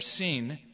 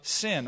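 First: The name is said the original, older way. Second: The name is said the common English way.

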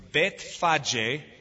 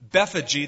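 First: The name is said with Hebrew pronunciation. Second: The name is said with English pronunciation. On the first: "In Hebrew, it's Bethphage" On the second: "that's how we would pronounce it in English"

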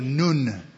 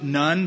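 First: The name is said with a Hebrew pronunciation. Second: The name is said with an English pronunciation. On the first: The speaker calls it right. "but it's in Hebrew" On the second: The speaker calls it wrong. "We pronounce it Nun"

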